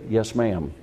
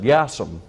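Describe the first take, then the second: First: The two words are said clearly and separately. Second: The two words are blended into one word. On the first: The speaker calls it right. "Don't say yassum. Say, yes, ma'am" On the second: The speaker calls it wrong. "I'm going to get real Southern with it"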